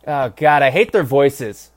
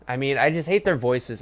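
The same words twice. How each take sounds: First: Loud disgust. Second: Said in the usual way. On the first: Real, not acted. Ranting about the announcers.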